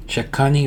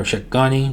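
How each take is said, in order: First: Shekhani with the K as a crisp ka; K sound. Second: Shekhani with the K softened to ga. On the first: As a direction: say the middle of Shekhani as ka. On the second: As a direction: say the middle of Shekhani as ga. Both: Shown as a demonstration. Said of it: "K's are usually pronounced like ga".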